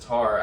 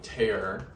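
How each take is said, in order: First: The vowel rhymes with car. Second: The vowel rhymes with care. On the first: The speaker calls it wrong. "That girl on YouTube who says tar, I thought that sounded funny" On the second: The speaker calls it right. "I was right on my pronunciation of tear"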